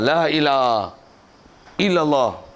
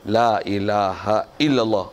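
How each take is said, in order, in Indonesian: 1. Frasa itu terputus oleh jeda di tengahnya. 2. Frasa itu diucapkan dengan lancar tanpa jeda. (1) "tak betul. Tak cantik pasal dia ada berselang, bersenggang" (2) "Oh, cantik"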